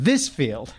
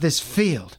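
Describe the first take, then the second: First: The stress falls on the word this. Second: The stress falls on the word field. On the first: The speaker calls it right. "The stress should be on this" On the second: The speaker calls it wrong. "he decides to put the stress on the field"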